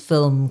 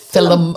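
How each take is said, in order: First: The word is said as one syllable. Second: The word is said as two syllables. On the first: The speaker calls it right. "I pronounce film correctly" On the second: The speaker calls it wrong. "I used to call it film. F I L U M"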